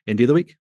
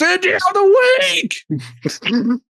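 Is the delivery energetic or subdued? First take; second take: subdued; energetic. First: It is said plainly with little energy. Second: It is said loudly with lots of energy. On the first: "I'm just going to be kind of like middle of the road" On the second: "want to give it some gusto"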